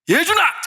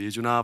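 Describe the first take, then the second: First: The name is shouted very loudly. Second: The name is called in a calm voice.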